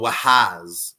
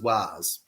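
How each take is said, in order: First: The name is said with an H sound. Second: The name is said without an H sound. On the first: The speaker calls it wrong. "if we wanted to pronounce the H" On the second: The speaker calls it right. "It's a it's a silent H"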